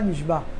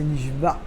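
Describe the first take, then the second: First: The word ends plainly, without a throat sound. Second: The word ends with a guttural throat sound. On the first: The speaker calls it wrong. "c'est pas nishba" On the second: The speaker calls it right. "c'est nishba, juré, avec un aïn"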